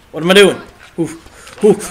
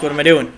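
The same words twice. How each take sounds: First: Frustrated exclamation. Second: Said in the usual way. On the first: Real, not acted. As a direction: throw the question up louder. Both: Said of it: "repeated louder".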